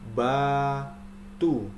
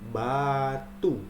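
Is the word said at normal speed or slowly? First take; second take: slowly; normal. First: The word is said more slowly. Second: The word is said at normal speed.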